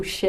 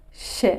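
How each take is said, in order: First: ش with the tongue flat between the teeth, a smeared, slushy hiss; a deliberately botched ش; wrong sh sound. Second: ش with the tongue tip down behind the lower front teeth, soft and hushed; a clean, quiet ش held briefly; correct sh sound. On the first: Teacher demonstrates the wrong ش with a flat tongue. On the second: Teacher shows the correct ش to students, softly. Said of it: "میگید ش". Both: Shown as a demonstration.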